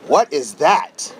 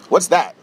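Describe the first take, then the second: First: The question sounds amazed and impressed. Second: The question sounds dismissive and unimpressed. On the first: The place now looks remarkable. "now people are going to drive past" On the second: The place seemed run-down and not worth noticing. "when you would drive past here, you would go"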